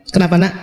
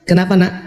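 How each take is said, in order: Both takes have the same delivery.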